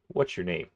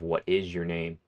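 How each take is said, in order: First: The words 'what is' are contracted to 'what's'. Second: The words 'what is' are said in full. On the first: "you kind of take out this I" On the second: "instead of"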